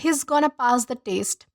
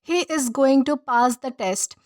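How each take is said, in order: First: It is quick and reduced to 'gonna'. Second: It is said fully as 'is going to'. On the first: It is casual, informal everyday speech. "थोड़ा rhythmic लगा, हमें थोड़ा जल्दी बोला गया" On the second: It is formal speech. "Formal तरीके से"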